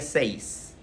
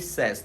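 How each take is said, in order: First: It is said like the Spanish word seis. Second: It is said with a short vowel, like sez. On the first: The speaker calls it wrong. "No se diría seis" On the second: The speaker calls it right. "se pronuncia says"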